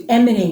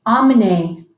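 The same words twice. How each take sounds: First: Emmener begun with a nasal "en", "ahn-muh-nay"; nasal en start. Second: Emmener said with a plain open "ah" start, like "amener". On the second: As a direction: say Emmener as "ah-muh-nay", no nasal. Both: Shown as a demonstration. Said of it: "as opposed to emmener".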